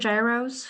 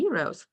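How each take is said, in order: First: The word is given an anglicized pronunciation. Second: The word is given its native-style pronunciation. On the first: The listener may not understand what is meant. The speaker calls it wrong. "they might not know what you're talking about" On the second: It matches how the people serving the food say it. The speaker calls it right. "what you're really referring to is the euros"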